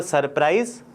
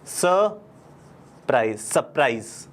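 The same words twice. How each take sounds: First: Wrong take, सरप्राइज with a strong r; wrong pronunciation. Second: Slow, careful सरप्राइज as "suh-PRIZE"; correct pronunciation. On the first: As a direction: say सरप्राइज with a hard "sur". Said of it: "नहीं बुलाते हैं". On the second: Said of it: "इसको क्या बुलाते हैं". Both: Shown as a demonstration.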